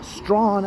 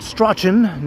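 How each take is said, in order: First: The name is said as one syllable. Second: The name is said as two syllables. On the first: This is how residents of the city say it. The speaker calls it right. "it is Strawn" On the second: This is how a visitor would say it. The speaker calls it wrong. "Not Strachan, no, no, no"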